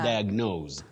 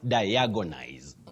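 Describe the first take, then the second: First: No extra vowel is inserted in the middle. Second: An extra vowel is inserted in the middle. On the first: The speaker calls it right. "That is the way to pronounce it" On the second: The speaker calls it wrong. "having what we call intrusions"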